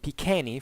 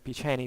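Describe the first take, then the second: First: It is said in the classical Latin pronunciation. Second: It is said in the ecclesiastical Latin pronunciation.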